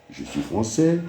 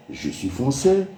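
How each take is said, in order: Both takes have the same delivery.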